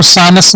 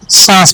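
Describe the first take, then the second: First: सानस with a full n and extra vowel, "saa-nas"; wrong reading. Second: सांस as one syllable with nasalised vowel; correct nasal reading. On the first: Teacher showing pupils the misreading, सानस as "saa-nas". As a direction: say सानस in two syllables, sounding the noon. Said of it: "इसको सानस नहीं पढ़ा जाएगा". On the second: Teacher giving pupils the right reading, सांस in one nasal syllable. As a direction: say सांस as "sãas", no separate n. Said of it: "सांस पढ़ा जाएगा". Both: Shown as a demonstration.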